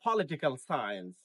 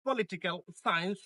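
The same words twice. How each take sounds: First: "পলিটিক্যাল সায়েন্স" as PO-li-ti-kal SAI-ens, falling; two-syllable "সায়েন্স" dropping in pitch; correct pronunciation. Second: "পলিটিক্যাল সায়েন্স" as po-li-ti-kal sains; one-syllable "সায়েন্স", tune held up; common mispronunciation. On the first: Teacher repeats "পলিটিক্যাল সায়েন্স" correctly as PO-li-ti-kal SAI-ens. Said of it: "this is". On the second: Teacher repeats what to avoid, "পলিটিক্যাল সায়েন্স" mispronounced as po-li-ti-kal sains. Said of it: "this is not". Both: Shown as a demonstration.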